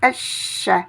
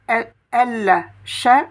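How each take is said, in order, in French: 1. Le L est silencieux et le sh est doublé. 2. Le L se prononce avant le son sh. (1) "on dira esh" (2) "au lieu de dire el, she"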